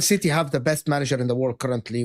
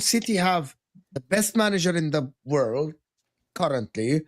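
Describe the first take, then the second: First: It is said in a firm, confident tone. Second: It is said in a doubtful, uncertain tone. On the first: The claim is beyond doubt. The speaker calls it right. "That was better. You said that with authority" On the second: The claim seems open to question. The speaker calls it wrong. "say it with like like you're doubting it"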